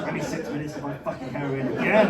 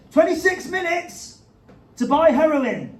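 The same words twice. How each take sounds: First: Weary complaint. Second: High, slow news announcement; dramatic headline read. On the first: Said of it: "a boast or a complaint". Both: Pretend.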